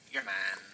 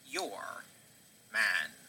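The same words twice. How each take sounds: First: It is said at a normal pace. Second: It is said more slowly.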